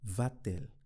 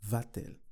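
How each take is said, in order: First: A t sound links the two vowels. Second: A t sound links the two vowels.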